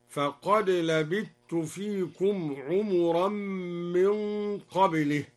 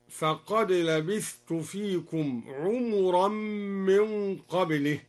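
First: Slow recitation, "لبثت" said labittu; no th in "لبثت", just a doubled t; merged tha into ta. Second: Said in the usual way. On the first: Shown as a demonstration. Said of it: "أدغم الدوري الثاء في التاء هكذا". (بإدغام الثاء في التاء في "لبثت") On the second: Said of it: "أدغم الدوري الثاء في التاء".

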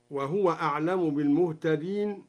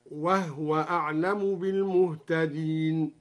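First: Said in the usual way. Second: "وهو" as wah-wa, ha with no vowel; "وهو" said wahwa, not wahuwa; silent vowel on the ha. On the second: Shown as a demonstration. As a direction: recite slowly, closing "وهو" on a vowelless h. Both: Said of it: "قرأ بإسكان الهاء هكذا".

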